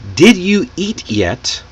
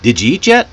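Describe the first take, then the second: First: Each word is pronounced fully and separately. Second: The words are linked and reduced together. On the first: "did you eat yet becomes" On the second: "they link their words together and reduce the less important ones"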